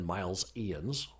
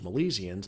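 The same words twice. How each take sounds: First: The start sounds like the word 'miles'. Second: The start does not sound like 'miles'. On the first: The speaker calls it wrong. "than Miles-ians. the the people of Miles" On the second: The speaker calls it right. "it probably sounds better as Milesians"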